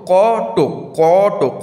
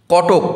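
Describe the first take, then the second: First: "কটক" loudly as ক, a breath, then টক; loud teacher sounding out ক–টক; split into syllables. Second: Said in the usual way. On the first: Shown as a demonstration. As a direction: draw out the ক of "কটক" before টক. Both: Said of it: "কয়ের পর কিন্তু আমাদের শ্বাসটা ছাড়ছি".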